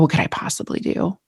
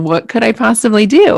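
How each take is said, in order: First: It sounds resigned and hopeless. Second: It sounds open and genuinely curious. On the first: Nothing one does could matter. The speaker calls it wrong. "instead of thinking, oh" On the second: There are real options worth exploring. The speaker calls it right. "like that growth mindset question, well"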